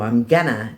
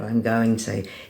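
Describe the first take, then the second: First: The phrase is reduced to a shortened form. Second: The phrase is said in full with every sound.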